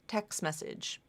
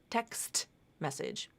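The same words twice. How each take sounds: First: The T at the end of text is dropped. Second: The T at the end of text is pronounced. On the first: The speaker calls it right. "typically pronounced as text message. Again, it's a T that was dropped" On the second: The speaker calls it wrong.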